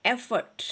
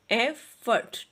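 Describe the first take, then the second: First: Said in the usual way. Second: effort split as ए... फर्ट, both parts firm; teacher sounding out effort in two syllables. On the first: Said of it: "syllables को break करना है". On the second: Shown as a demonstration. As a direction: break effort into two separate beats. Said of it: "break करना है आपने इस तरह से".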